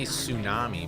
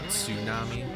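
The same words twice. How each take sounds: First: The word begins with a plain s sound. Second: The word begins with a clear ts sound. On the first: The speaker calls it wrong. "we say tsunami" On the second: The speaker calls it right. "it's got a little, tss"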